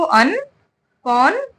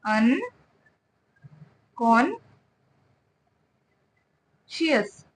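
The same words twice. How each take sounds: First: Slow अनकॉन्शियस with a rising end; slow model word. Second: अनकॉन्शियस stretched out very slowly, softer and falling; syllable by syllable. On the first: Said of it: "क्या पढ़ेंगे हम इसको?". (अनकॉन्शियस धीरे, अंत में ऊपर उठती आवाज़) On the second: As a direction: break अनकॉन्शियस into drawn-out syllables. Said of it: "इसको देख के अगर बोलना नहीं आ रहा है". (अनकॉन्शियस बहुत धीरे, एक-एक अक्षर खींचकर) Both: Shown as a demonstration.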